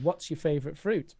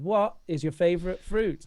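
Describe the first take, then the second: First: It is said quickly, with a contraction. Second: It is said slowly, every word separate.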